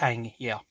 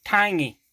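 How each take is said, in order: First: Said in the usual way. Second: Drawled Southern country accent on "Tangy". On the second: Shown as a demonstration. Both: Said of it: "as I say in my country accent".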